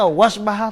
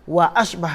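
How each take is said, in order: First: The glottal stop is dropped, running the words together. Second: A glottal stop is kept before asbah. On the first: The speaker calls it wrong. "Tak boleh kata wasbah tak boleh" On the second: The speaker calls it right. "mesti nak ambil dia"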